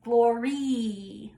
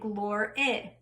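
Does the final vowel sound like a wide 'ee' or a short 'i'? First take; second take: wide 'ee'; short 'i'. First: The final vowel is a wide, bright 'ee'. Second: The final vowel is a short 'i'. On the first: The speaker calls it wrong. "really wide, very cheesy sound" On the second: The speaker calls it right. "with like a little squatty I, the I, the short I sound"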